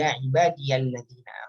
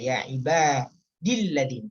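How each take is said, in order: First: A 'ya' sound is heard after 'ibadi'. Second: No 'ya' sound is heard after 'ibadi'. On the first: The wording is more general. "Kalau ada ya-nya pasti ya ibadiyalladzina" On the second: The wording is more specific. "ya ibadi tanpa ya, makanya dibaca ya ibadilladzina"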